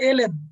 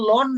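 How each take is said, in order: First: It is spelled out as letters, el en. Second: It is said as one syllable, lon. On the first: The internationally used form is being used. The speaker calls it right. "উচ্চারণ হবে এল এন" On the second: A local shortcut is being used. The speaker calls it wrong. "এটা কিন্তু লন না"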